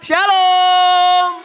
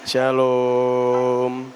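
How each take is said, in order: First: It is said warmly, with lively intonation. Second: It is said flatly, without lively intonation.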